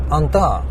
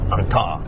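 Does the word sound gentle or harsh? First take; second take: gentle; harsh. First: The word is said in a soft, gentle way. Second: The word is said in a harsh, abrasive way. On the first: The speaker sounds friendly toward the listener. "You can say it nicely like" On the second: The speaker sounds rough toward the listener. "it kind of sounds abrasive"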